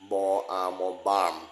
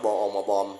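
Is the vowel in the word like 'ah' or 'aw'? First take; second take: ah; aw. First: The vowel is an open 'ah' sound. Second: The vowel is a rounded 'aw' sound. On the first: The speaker calls it right. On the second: The speaker calls it wrong. "อย่าอ่านว่าบออมอบอมนี่ไม่ได้"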